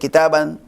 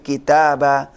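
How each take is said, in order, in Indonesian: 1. Kata ini berakhir dengan akhiran 'an'. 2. Kata ini berakhir dengan vokal 'a' biasa. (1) "Bukan kitaban" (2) "tapi kitaba itu kalau tanwin fathah"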